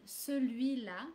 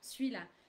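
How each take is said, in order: First: The vowel after the c is fully pronounced. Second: The vowel after the c is dropped. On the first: It follows the written form. "the written form would be celui-là" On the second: It is relaxed, informal conversation. "colloquial to say celui-là, just uh, very relaxed"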